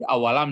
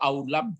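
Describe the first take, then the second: First: It is said in three syllables, a-wa-lam. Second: It is said in two syllables, au-lam. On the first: The speaker calls it right. "tapi awalam" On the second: The speaker calls it wrong. "nggak ada dibaca aulam, tidak"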